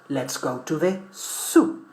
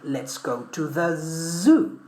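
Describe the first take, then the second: First: The word zoo begins with a hissing s. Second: The word zoo begins with a buzzing z. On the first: The speaker calls it wrong. "but that's wrong" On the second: The speaker calls it right. "We should say"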